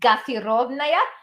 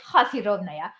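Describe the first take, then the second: First: It begins with a hard g sound. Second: It begins with a breathy h sound.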